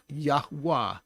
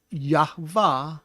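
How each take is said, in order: First: Yahweh said slowly as yah-WAH; w sound in Yahweh. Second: Yahweh said slowly as yah-VAH; v sound in Yahweh. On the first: Teacher giving the true name, Yahweh pronounced yah-WAH with a w. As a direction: give Yahweh a breathed h, then wah. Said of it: "his name is". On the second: Teacher showing how not to pronounce the name, Yahweh as yah-VAH. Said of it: "is not how to pronounce his name". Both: Shown as a demonstration.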